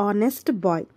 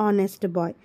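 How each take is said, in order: The two takes are said the same way.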